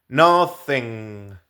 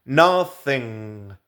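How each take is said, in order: The two takes are said the same way.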